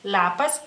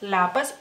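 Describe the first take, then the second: Both takes have the same delivery.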